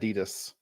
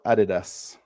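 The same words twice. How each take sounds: First: It is said the American way. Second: It is said the Australian way. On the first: "in America, they call it Adidas" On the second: "in Australia, we call it Adidas"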